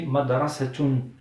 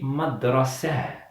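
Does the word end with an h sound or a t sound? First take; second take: t sound; h sound. First: The word ends with a pronounced t sound. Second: The word ends softly with an h sound. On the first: The word is linked to the next word. "quand je relis avec un autre mot, je dis madrasatun... Donc je prononce ta" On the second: The word ends the phrase. "Quand je m'arrête, je dis madrasa... avec le son de ha"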